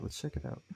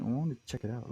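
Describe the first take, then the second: First: Soft low whisper, no voice. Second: Said in the usual way. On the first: Shown as a demonstration. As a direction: whisper it like a secret.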